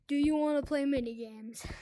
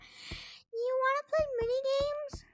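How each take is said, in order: First: It is said in his normal voice. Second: It is said in a put-on kid voice.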